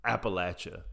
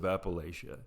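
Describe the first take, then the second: First: Appalachia said as "Appa-LATCH-uh"; local pronunciation. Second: Said in the usual way. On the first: Shown as a demonstration. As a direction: give Appalachia a short "latch" in the middle, like locals. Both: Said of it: "I know I don't sound like that".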